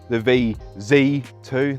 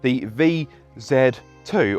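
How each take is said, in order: First: The letter Z is said 'zee', American style. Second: The letter Z is said 'zed', British style.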